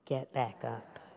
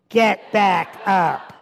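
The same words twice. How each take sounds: First: It is said at medium volume. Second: It is said at the loudest volume.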